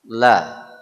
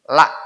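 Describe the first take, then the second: First: The L sounds thick and full. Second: The L sounds thin and shrill. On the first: The speaker calls it right. "agak tebal" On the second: The speaker calls it wrong. "Sehingga suaranya lebih melengking"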